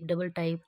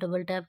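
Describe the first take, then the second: First: The second word has an 'eye' vowel. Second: The second word has a short 'a' vowel. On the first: This is how one particular person mispronounces it. "Javed मामू कहते हैं double टाइप" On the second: This is how most people say it. "बाकी तो double टैप कहते हैं"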